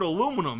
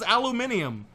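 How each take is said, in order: First: The word is said with four syllables. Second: The word is said with five syllables. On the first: The speaker calls it right. "You put an extra I in the word aluminum" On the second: The speaker calls it wrong. "That doesn't even sound right"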